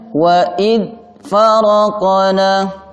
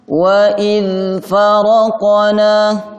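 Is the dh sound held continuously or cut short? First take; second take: cut short; continuous. First: The dh sound is cut off abruptly. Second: The dh sound is held with continuous voice. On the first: The speaker calls it wrong. "tidak dibaca ... Ini keliru" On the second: The speaker calls it right. "suaranya harus sambung"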